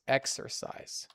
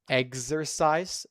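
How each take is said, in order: First: The first syllable sounds like 'eks'. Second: The first syllable sounds like 'egz'. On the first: The speaker calls it right. "So there is a x, k and s" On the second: The speaker calls it wrong. "So it is not eggs"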